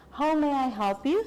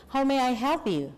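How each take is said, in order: First: "you" lifted at the end; rising question intonation. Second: "you" dropped at the end; falling intonation. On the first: Teacher modelling the line for students, mistakenly rising at the end. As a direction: let "How may I help you?" rise on "you". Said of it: "Sorry, the intonation must be down". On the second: Teacher correcting the intonation for students, falling at the end. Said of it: "Intonasinya harus turun". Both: Shown as a demonstration.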